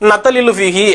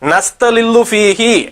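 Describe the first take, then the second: First: The first word has a doubled t, no s. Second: The first word has an s sound before t. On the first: The s sound was dropped. The speaker calls it wrong. "ஏன் இஸ் விட்டீங்க?" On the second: This is how it is written in the text. The speaker calls it right. "நஸ்தலில்லு ஃபீஹி அப்படின்னு அதுல இருக்குது"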